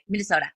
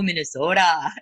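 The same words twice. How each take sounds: First: The word is said quickly with short O sounds. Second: The word is drawn out with long O sounds. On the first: "I try to say it like as fast as I can" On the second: "you have such a long O in it"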